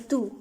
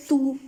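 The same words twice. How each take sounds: First: तू said easily, no push on the u; relaxed tu. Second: तू said with too much force on the u; forced tu. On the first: Teacher showing students the right way to say तू, relaxed. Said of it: "बस आराम से बोलना है तू". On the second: Teacher showing students the wrong way to say तू, forced. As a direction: lean hard on the vowel of तू. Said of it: "ज़्यादा जोर नहीं लगाना है यू के ऊपर". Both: Shown as a demonstration.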